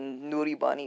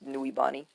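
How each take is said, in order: First: The name has an r sound in the middle. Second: The name has no r sound in the middle. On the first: The speaker calls it wrong. "That's not how you say Nuribani" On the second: The speaker calls it right. "It's Nuibani"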